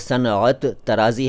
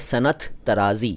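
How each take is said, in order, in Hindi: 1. पहला शब्द पूरे रूप में बोला गया है। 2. पहला शब्द सरल रूप में बोला गया है। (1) "दरअसल ये सनअत तराज़ी है, लेकिन ऐसे ना बोलिए" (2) "बल्कि सिंपली बोलिए"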